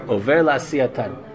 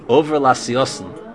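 First: The ending is pronounced with t sounds. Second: The ending is pronounced with s sounds.

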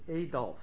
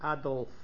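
First: The name is said with a non-German pronunciation. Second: The name is said with a German pronunciation. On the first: "People who don't speak German or don't come from a German background pronounce it Adolf" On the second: "is pronounced by people who speak German as Adolf"

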